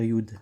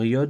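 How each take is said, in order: First: The vowel sounds like 'u'. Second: The vowel sounds like 'o'. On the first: "ou peut se dire yud" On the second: "peut se dire yod"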